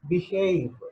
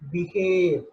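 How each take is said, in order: First: The second vowel glides as a diphthong. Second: The second vowel is a long pure vowel. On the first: The speaker calls it right. "It has to be pronounced as behave" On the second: The speaker calls it wrong. "but we pronounce as behave"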